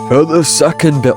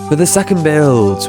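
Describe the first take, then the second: First: It is said in a goofy put-on voice. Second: It is said in a natural speaking voice.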